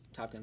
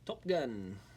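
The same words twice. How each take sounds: First: It is said in the speaker's normal accent. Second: It is said in an odd put-on accent.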